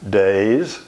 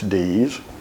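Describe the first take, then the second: First: The surname is said the local Charleston way. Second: The surname is said the usual non-local way. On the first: This is how the family name is said locally. "that's our pronunciation of D E A S" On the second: This is how the name is said outside the region. "Everywhere else, it's D's"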